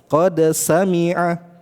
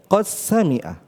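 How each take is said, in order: First: The d is pronounced clearly before the s. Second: The d merges into a doubled s sound. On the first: This follows the reading of Hafs. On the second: This follows the reading of Susi from Abu Amr. "Langsung dimasukkan ke huruf sin"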